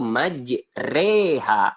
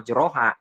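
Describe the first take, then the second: First: The vowel after the r leans toward e. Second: The vowel after the r is an open a. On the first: The speaker calls it right. "bacanya dengan bacaan miring yaitu majreha" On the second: The speaker calls it wrong. "tidak boleh membacanya majroha"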